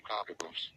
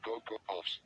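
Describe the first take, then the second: First: "Cocoa Puffs" said like "cocka-poofs"; mispronounced. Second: Said in the usual way. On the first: Shown as a demonstration. Showing what he says instead, mispronounced "Cocoa Puffs". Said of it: "Instead, I say". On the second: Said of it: "I can't even say".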